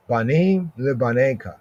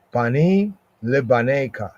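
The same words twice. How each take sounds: The two takes are said the same way.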